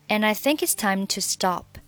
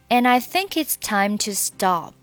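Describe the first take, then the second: First: The sentence is read at a faster pace. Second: The sentence is read at a slow pace. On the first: "下面我们把速度加快一点" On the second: "我们把整句话从well 开始慢速读一下"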